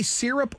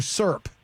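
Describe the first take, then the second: First: "syrup" said in full as SIRR-up; two-syllable syrup. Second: "syrup" squashed into SURP; one-syllable syrup. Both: Shown as a demonstration. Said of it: "do you say syrup or syrup".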